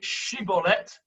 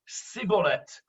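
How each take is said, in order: First: The word begins with a sh sound. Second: The word begins with an s sound. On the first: The speaker calls it right. "instead of saying Shibboleth" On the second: The speaker calls it wrong. "They could only say s"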